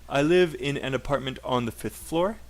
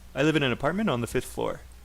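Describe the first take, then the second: First: It is said slowly and clearly. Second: It is said fast, like a native speaker.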